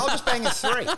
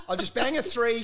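First: Laughing quote. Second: Said in the usual way. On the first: Retold or imitated. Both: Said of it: "I'm like".

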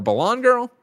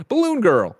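First: "Balloon" rhyming with lawn, pitched high; "Balloon" as buh-LAWN. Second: "Balloon" rhyming with moon. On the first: Host offering another reading of a title, "Balloon" as buh-LAWN. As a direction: say "Balloon" with an open ah or aw in the second syllable. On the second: Host trying a game title, "Balloon" said buh-LOON. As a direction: say "Balloon" as buh-LOON, high on the second syllable. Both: Shown as a demonstration. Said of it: "or Balloon Girl?".

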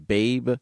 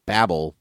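First: "Babe" said as the pig film, no final L; "Babe" read as one syllable; misread title. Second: "Babel" said with a final L; "Babel" as two syllables, BAY-bel; corrected title. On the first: Real, not acted. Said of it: "I Ron Burgundied that". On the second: Shown as a demonstration. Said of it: "I'm gonna do that again".

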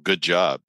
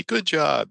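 First: Said in the usual way. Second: Much higher-pitched, friendly praise; warm, friendly. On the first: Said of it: "We started with the example". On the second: Shown as a demonstration. Speech expert demonstrating praise in a text, warm and friendly. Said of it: "with a warm, friendly".

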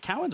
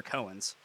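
First: Cowens said with COW as in the animal; first syllable of Cowens rhymes with "now"; COW pronunciation. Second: Cohen's said with a long O, CO-ens; first syllable of Cohen's rhymes with "go"; CO pronunciation. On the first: Host checking the guest's surname, Cowens pronounced COW-ens. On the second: Host offering the other surname option, Cohen's pronounced CO-ens. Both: Shown as a demonstration. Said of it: "Is it Cowens or Cohen's?".

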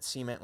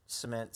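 First: "cement" as SEE-ment; "cement" with a long ee first, SEE-ment; Southern pronunciation. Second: "cement" as suh-MENT; "cement" with a short first vowel, suh-MENT; second-syllable stress. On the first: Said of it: "I've heard it from some people in the South". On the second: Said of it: "cement, what have you". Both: Shown as a demonstration.

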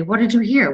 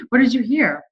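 First: Higher, brighter question to the dog; pet talk. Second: Much higher sing-song question with a laugh; laughing pet talk. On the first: Owner asking the pet what it heard, higher pet talk. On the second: Owner cooing at the pet with a laugh, high sing-song. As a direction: coo at the pet, giggling. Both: Retold or imitated.

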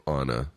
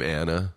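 First: Anna said as AH-nuh; Anna pronounced like "Ana", ah sound; open-a Anna. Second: Anna with the a of "cat"; Anna rhyming with banana's middle syllable; short-a Anna. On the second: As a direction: say Anna as AN-uh, short flat-a vowel. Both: Shown as a demonstration. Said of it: "I've heard it pronounced both ways".

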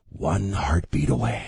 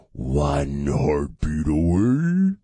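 First: Low, slow ominous warning; slow, deep teaser of looming dread; mock ominous. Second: Very slow, low, rising at the end; hammed-up spooky drawl with a rising finish; exaggerated mock ominous. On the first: Ominous warning, played for effect. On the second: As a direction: stretch every word, swooping up on AWAY. Ominous line repeated, exaggerated.

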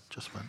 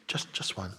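First: Second ask dropped to a soft whisper; fading mock request, whispered. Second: Said in the usual way. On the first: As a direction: repeat the ask as a hushed aside. Repeats the kidney request.

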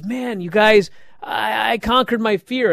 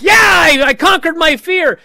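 First: Higher, bubbly "conquered" at normal volume; excited. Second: Much higher, loud triumphant yell of "conquered"; triumphant shout. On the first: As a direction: brag it happily to the guys. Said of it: "Thea's all excited". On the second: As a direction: shout it in victory. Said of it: "And then she's like". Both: Retold or imitated.

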